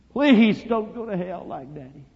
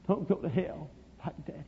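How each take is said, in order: First: High, slow, drawn-out begging; imploring child's wail to Mama; desperate plea. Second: Put-on very soft, tearful-child begging; small, faint, imploring voice; hushed plea. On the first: Retold or imitated. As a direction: cry out PLEASE loudly, then ease off. Boy begs his mama harder. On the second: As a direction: beg Mama almost under the breath. Boy begs his mama, first time.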